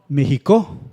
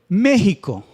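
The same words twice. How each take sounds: First: The stress is on the last syllable. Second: The stress is on the first syllable. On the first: The speaker calls it wrong. "si pronunciáramos la última sílaba, que es co, fuerte" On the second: The speaker calls it right. "la sílaba fuerte es la antepenúltima"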